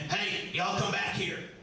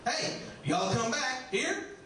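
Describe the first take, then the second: First: It is said in a creepy, menacing way. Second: It is said in a warm, friendly way. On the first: The speaker intends to trap and harm the listener. "a creepy hillbilly that's going to lock you in a root cellar" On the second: The speaker is being welcoming and hospitable. "southern hospitality"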